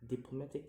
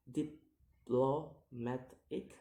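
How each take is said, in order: First: Said in the usual way. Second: "diplomatic" slowly split into syllables; slow, separated syllables on "diplomatic". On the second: Shown as a demonstration. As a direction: sound out "diplomatic" piece by piece. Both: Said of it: "count the word syllable backwards".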